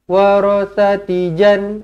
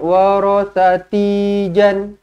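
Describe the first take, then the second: First: The vowel in 'ti' is held short. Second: The vowel in 'ti' is drawn out long. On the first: The speaker calls it right. "Kena dibaca dengan pendek di sini" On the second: The speaker calls it wrong. "jangan warathati jan... Dekat situ kan nampak panjang kan? Tak boleh"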